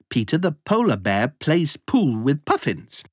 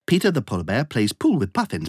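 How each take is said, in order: First: The sentence is spoken at a fast pace. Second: The sentence is spoken at a very fast pace. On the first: "plus vite!" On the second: "Encore plus vite!"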